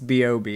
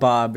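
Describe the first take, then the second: First: The name is said letter by letter. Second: The name is said as one word. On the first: The speaker calls it right. "is how it's pronounced" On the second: The speaker calls it wrong. "It's not Bob"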